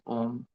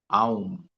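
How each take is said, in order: First: A single steady 'o' vowel comes before the m. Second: An 'ah' sound glides into 'oo' before the m. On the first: The speaker calls it wrong. "some people pronounce it as Om" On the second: The speaker calls it right. "technically it is pro- pronounced as Aum"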